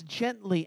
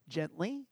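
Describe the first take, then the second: First: Said in the usual way. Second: Gently. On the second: Shown as a demonstration. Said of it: "he comes gently".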